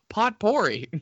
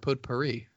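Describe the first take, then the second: First: It is said imitating a different pronunciation. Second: It is said in the speaker's ordinary pronunciation.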